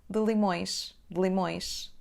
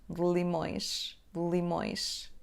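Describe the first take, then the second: The two takes are said the same way.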